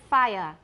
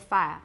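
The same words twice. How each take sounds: First: The vowel glides through three vowel sounds. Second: The vowel is smoothed to two sounds. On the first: "You can say" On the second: "in colloquial British, you'll probably say"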